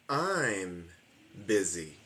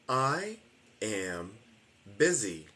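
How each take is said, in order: First: I and am merge into one short syllable. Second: I and am are two separate full words. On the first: "después digo la versión de la contracción" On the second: "Voy a decir I am busy completo"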